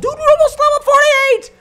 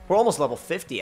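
First: Very high, loud burst of excitement; excited shout. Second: Said in the usual way. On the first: Real, not acted. Player noticing how close level fifty is, excited shout. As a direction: shout it at the top of the voice. Sudden excitement at game progress.

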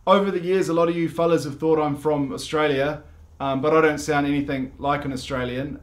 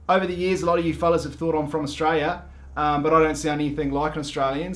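First: Said in the usual way. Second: A quick, put-on Australian accent; mock Australian accent, fast. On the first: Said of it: "Australian-ness talk". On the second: Shown as a demonstration. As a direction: rattle it off faster, Aussie-style. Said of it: "that was, like, Australian-ness talk".

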